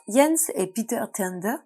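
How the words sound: The names are said with a Danish accent. The speaker calls it wrong. "j'essaye de le faire avec l'accent danois de Google Traduction"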